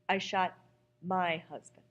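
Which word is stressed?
my. The stress falls on the word my.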